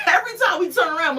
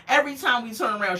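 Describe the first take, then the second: First: Laughing it out, high and fast. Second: Said in the usual way. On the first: Real, not acted. Vlogger mocking Melissa's constant Italian food, laughing. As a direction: giggle through the words, louder.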